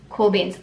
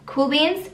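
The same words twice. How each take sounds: First: "Cool beans." settled with a falling tune; self-answer. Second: "Cool beans?" asked with a bright rising tune; checking question. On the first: Teacher answering her own check-in, falling confirmation. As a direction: drop "beans" down, answering your own question. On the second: Teacher checking in with viewers, rising question. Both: Real, not acted.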